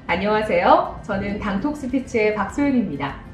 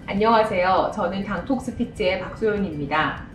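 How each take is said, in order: First: The pitch rises and falls with lively movement. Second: The pitch stays flat and monotone throughout. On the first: The speaker calls it right. "조금 차이가 생기죠" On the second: The speaker calls it wrong. "이렇게 하면 굉장히 밋밋하죠"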